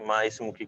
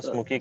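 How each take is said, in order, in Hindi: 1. s से पहले एक अलग 'i' स्वर बोला जाता है। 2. शब्द बिना अतिरिक्त स्वर के आपस में जुड़ जाते हैं।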